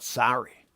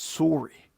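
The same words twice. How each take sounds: First: It is said with an American vowel. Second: It is said with a Canadian vowel. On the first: The speaker calls it wrong. "Americans say it wrong. It's not sorry" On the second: The speaker calls it right. "That's just how it's said"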